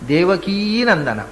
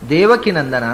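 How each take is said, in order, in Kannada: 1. ದೇವಕಿಯ ಕೊನೆಯ ಸ್ವರ ದೀರ್ಘ. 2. ದೇವಕಿಯ ಕೊನೆಯ ಸ್ವರ ಹ್ರಸ್ವ. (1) "ದೇವಕೀ ಅಂತ ಅದು ಈಕಾರ ... ಇಕಾರ ಅಂತ ಹ್ರಸ್ವ ಶಬ್ದ ಅಲ್ಲ" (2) "ಆದರೆ ಆಚಾರ್ಯರು ದೇವಕಿ ನಂದನ ಅಂತ ಹೇಳ್ತಾರೆ"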